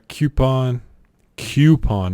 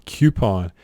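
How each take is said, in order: First: "coupon" said kyoo-pon. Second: "coupon" as kyoo-pon, falling; kyoo-pon again. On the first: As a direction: put a y after the k in "coupon". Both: Shown as a demonstration. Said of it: "not coupon".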